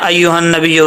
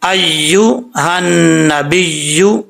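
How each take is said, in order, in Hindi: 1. दोहरी 'y' की आवाज़ छोटी काटी जाती है। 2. दोहरी 'y' की आवाज़ पूरी तरह लंबी खींची जाती है। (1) "ऐसे नहीं पढ़ना" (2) "या का जो हक है वो पूरा अदा करना चाहिए"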